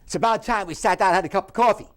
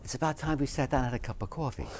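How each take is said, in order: First: It is said in a harsh, angry tone. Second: It is said in a warm, friendly tone. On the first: "And then very angry" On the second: "One would be very friendly"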